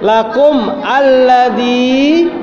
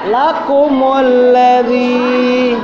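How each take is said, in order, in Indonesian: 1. Huruf 'm' tidak diikuti vokal 'u' tambahan. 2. Huruf 'm' diikuti vokal 'u' tambahan.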